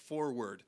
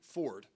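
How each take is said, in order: First: It is said in full with both syllables. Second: It is shortened to sound like Ford. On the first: "instead of forward" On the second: "I get excited, Tim, when I say forward ... you're saying like Ford"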